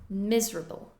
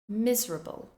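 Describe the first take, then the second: First: The word is condensed with a syllable reduced. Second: The word is condensed with a syllable reduced.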